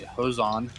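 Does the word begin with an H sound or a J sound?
H sound. The word begins with an H sound.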